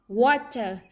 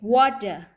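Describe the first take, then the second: First: The middle consonant is a clear, unvoiced T. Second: The middle consonant is a soft, voiced D.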